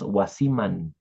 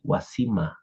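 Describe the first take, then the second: First: The word ends with a clear n sound. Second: The word ends without any n sound. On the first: This is how it is said in the north. "in Otavalo, in the north, it sounds wasiman" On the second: This is how it is said in the Amazon region. "in the Amazonian region, it sounds just like wasima"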